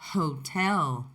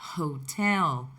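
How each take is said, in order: First: The initial h is breathy and aspirated. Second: The initial h is breathy and aspirated.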